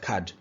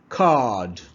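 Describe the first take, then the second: First: The vowel is short and clipped. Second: The vowel is long and drawn out. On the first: The speaker calls it wrong. "not card" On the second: The speaker calls it right. "it needs to be prolonged in its pronunciation"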